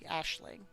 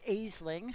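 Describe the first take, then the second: First: The word begins with an 'ash' sound. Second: The word begins with an 'ays' sound. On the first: The speaker calls it right. "It's actually Ashling" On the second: The speaker calls it wrong. "It's not Aisling, how I always say it"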